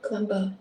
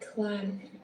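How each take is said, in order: First: A b sound is heard at the end. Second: No b sound is heard at the end. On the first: The speaker calls it wrong. "you don't pronounce it as climber" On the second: The speaker calls it right. "It's just climb"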